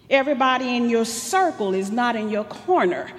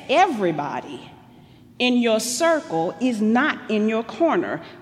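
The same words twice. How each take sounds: First: The sentence is spoken quickly. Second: The sentence is spoken slowly.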